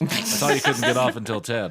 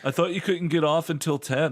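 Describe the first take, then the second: First: It is said in Rayla's own voice. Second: It is said in another character's voice.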